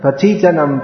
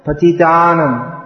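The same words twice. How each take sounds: First: "patitanam" as puh-TEE-tuh-num; mispronounced patitanam. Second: "patitanam" as puh-ti-TAA-num; long second A. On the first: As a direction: wrongly stress TI in "patitanam", short TA. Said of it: "that's how they say it". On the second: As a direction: stretch the TA in "patitanam", not the TI. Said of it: "is long". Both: Shown as a demonstration.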